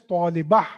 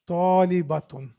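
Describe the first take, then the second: First: The word ends with a soft h sound. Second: The word ends with a full t-n ending. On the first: The speaker stops on the word. "ta marbuta is pronounced as ha when you halt or when you stop on it" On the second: The word is said without stopping on it. "it becomes talibatun"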